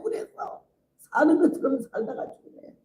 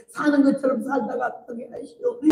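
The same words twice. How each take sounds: First: Said in the usual way. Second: Jeolla dialect plea, higher, with 사는 lifted and the end rising; crying Jeolla dialect prayer. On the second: Retold or imitated. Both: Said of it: "전라도 사투리로 기도를 하더라고".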